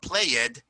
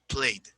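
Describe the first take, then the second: First: The ending is separate, sounding like two syllables. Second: The ending is joined, giving one syllable. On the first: The speaker calls it wrong. "Not played, ... it sounds like you're saying play it" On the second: The speaker calls it right.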